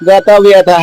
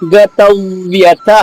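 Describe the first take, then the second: First: The consonant before vya is single and unpressed. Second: The consonant before vya is doubled and pressed. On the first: The speaker calls it wrong. "మామూలుగా చదివేళ్ళు ఏం చెబుతారు" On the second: The speaker calls it right. "ఆ అక్షరాన్ని రెండు అక్షరాలుగా పలుకుతాం కాబట్టి"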